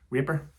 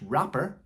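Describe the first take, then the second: First: The word sounds like 'raper'. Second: The word sounds like 'rapper'. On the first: The speaker calls it wrong. "I used to raper" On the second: The speaker calls it right. "I'm glad I said that right"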